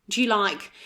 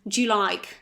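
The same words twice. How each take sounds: No difference in how they are said.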